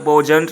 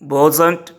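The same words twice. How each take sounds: First: The middle consonant is a j sound. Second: The middle consonant is a z sound. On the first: The speaker calls it wrong. "वॉजंट नहीं" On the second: The speaker calls it right. "ज"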